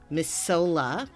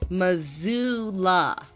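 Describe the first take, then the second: First: The middle consonant is an s sound. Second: The middle consonant is a z sound. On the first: The speaker calls it wrong. "somebody pronounces it as Masola" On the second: The speaker calls it right. "That's how it's pronounced"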